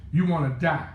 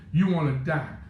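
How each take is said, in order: Both takes have the same delivery.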